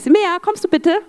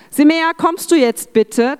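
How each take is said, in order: First: It is said in a friendly, gentle tone. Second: It is said in a firmer, clearer tone.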